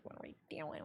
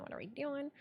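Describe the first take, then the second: First: Breathy whisper to herself; whispered worried thought; whispered inner panic. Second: Quiet voiced fretting; softly spoken worry; soft worried voice. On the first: Retold or imitated. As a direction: hiss it under the breath in worry. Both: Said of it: "I'm like".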